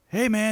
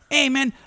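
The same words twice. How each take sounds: First: The voice is at its normal, lower pitch. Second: The voice is raised to a higher pitch. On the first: The speaker calls it wrong. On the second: The speaker calls it right.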